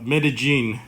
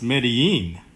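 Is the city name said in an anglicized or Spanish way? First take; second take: anglicized; Spanish. First: The name is said with an American English pronunciation. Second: The name is said with a local Spanish pronunciation. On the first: The speaker calls it wrong. "that's such a gringo way to say it" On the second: The speaker calls it right. "from what I know, it's Medellin"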